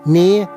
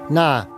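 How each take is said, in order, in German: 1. Der Vokal wird als 'e'-Laut gesprochen. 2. Der Vokal wird als 'a'-Laut gesprochen. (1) "In Annaberg zum Beispiel" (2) "das fränkische A"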